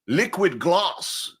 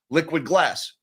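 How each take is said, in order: First: It is said in a put-on British accent. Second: It is said in a plain American accent. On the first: It sounds more refined and innovative. "a phony British accent" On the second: It sounds ordinary. "That's me and my gringo pronunciation"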